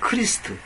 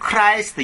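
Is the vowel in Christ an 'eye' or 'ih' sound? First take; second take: ih; eye. First: The vowel is a short 'ih' sound. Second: The vowel sounds like the word 'eye'. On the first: This is the original, older pronunciation. "킹제임스 성경 당시의 발음은 뭐냐면 크리스트" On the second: This is the modern English pronunciation. "영어적인 표현은 크라이스트입니다"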